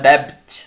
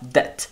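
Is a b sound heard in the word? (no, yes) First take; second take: yes; no. First: A b sound is pronounced in the word. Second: No b sound is pronounced in the word. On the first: The speaker calls it wrong. "Não é debt" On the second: The speaker calls it right. "é só debt"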